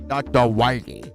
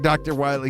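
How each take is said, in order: First: The name is said in a lisping, cartoonish voice. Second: The name is said in a plain, normal way. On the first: This imitates the game's odd voice acting. "he said Doctor Wily. Instead of with the Elmer Fudd voice" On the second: This is the expected way to say the name. "he didn't say Doctor Wily"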